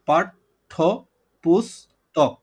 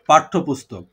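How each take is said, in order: First: The word is said slowly, syllable by syllable. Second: The word is said smoothly as one unit.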